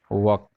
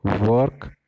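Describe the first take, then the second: First: वर्क as "wahk", no r; वर्क without r, not rising; walk in contrast. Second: वर्क with sounded r, rising tune; वर्क like "vork", ending up; work in contrast. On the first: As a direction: say वर्क like walk, open vowel. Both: Shown as a demonstration. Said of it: "इस difference को थोड़ा समझो".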